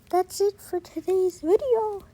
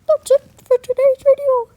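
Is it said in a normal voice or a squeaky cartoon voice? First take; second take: normal; squeaky cartoon. First: It is said in his normal voice. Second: It is said in a Mickey Mouse voice.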